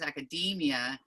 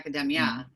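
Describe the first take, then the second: First: The stress falls on the long 'dee' syllable. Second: The stress falls away from the 'dee' syllable. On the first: The speaker calls it right. "the stress is on the E and it's a long E, so it's academia" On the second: The speaker calls it wrong.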